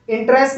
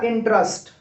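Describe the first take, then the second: First: इंटरेस्ट said in-TER-est, a full e in the middle; wrong pronunciation. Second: इंटरेस्ट said IN-trust, the middle vowel swallowed; इंटरेस्ट with a short reduced middle; correct pronunciation. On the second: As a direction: model इंटरेस्ट as two syllables, IN-trust. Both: Shown as a demonstration. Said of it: "मैं आपको बता दूं यहाँ पे pronunciation".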